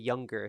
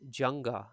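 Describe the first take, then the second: First: The word starts with a Y sound. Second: The word starts with a J sound.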